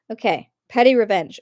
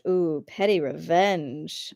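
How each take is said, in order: First: Said in the usual way. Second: Slow, lower, savoring each word; relishing. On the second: Pretend. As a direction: draw it out with relish. Savoring the title.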